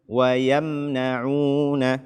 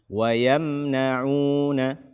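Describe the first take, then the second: No difference in how they are said.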